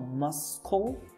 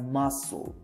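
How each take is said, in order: First: The middle is said with a k sound. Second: The middle is said without a k sound. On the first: The speaker calls it wrong. "It is not muscle" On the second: The speaker calls it right. "but muscle"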